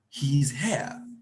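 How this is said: It is said as a statement.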